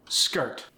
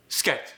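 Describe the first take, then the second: First: Said in the usual way. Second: Skirt without its R, like "sket", Korean accent; Korean-accented skirt, R dropped. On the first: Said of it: "Those sounded pretty darn similar". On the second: Shown as a demonstration. Coach demonstrating unaspirated sounds, Korean accent. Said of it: "some unaspirated sounds".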